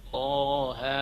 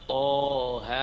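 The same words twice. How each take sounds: The two takes are said the same way.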